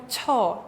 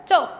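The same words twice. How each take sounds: First: "cho" with a big airy puff after the consonant; too much air. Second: "Cho" tight and short, no puff of breath; little air. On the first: Teacher showing learners the error, lots of air on "cho". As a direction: overdo the breath on "cho", heavily aspirated. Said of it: "hacemos con mucho aire como cho". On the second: Teacher showing the correct sound, little air on "Cho". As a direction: say "Cho" tense and unaspirated. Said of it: "No quitamos tanto aire al pronunciar". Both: Shown as a demonstration.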